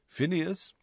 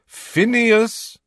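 First: Said in the usual way. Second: Loud, high shout of the name. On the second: A narrator's reading. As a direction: yell to wake a sleeper. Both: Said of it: "when he attempted to rouse him".

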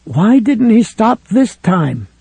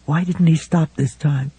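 First: Slow, higher, "this time" drawn out and pressed; stress on this time. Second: Said in the usual way. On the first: A narrator's reading. Ralph replaying Helen's words, stressing "this time". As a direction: lean hard on "this time". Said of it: "What she had said was". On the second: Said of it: "That wasn't what she had said".

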